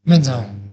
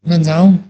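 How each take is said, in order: First: It is said as a statement, falling. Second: It is said as a question, rising. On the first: The speaker announces they are leaving. "बस विदा लेना चाहता हूँ" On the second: The speaker asks whether they may go. "प्रश्नात्मक हो सकता है"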